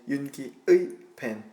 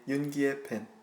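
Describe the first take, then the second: First: The particle is said fully and carefully. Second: The particle is said in its quick, reduced form. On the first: "it's really hard to say 윤기의 pen" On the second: "when we speak quickly, we say 윤기의 pen"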